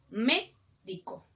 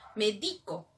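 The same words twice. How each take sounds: First: The stress is on the first syllable. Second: The stress is on the middle syllable. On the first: It names a doctor. "Es el doctor" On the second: It means I prescribe or medicate. "que te va a recomendar algo, una receta"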